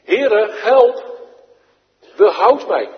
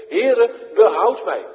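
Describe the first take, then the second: First: Loud, high plea; shown cry for help. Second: Loud, high call for rescue; crying out. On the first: Shown as a demonstration. Preacher showing the children how to call, loud and high. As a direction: cry out to the Lord, loud and urgent. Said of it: "Nou zo". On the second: Acted. Peter going under, crying out loud and high to the Lord. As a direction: shout it as you go under. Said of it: "riep hij zeggende".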